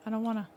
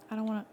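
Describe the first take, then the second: No difference in how they are said.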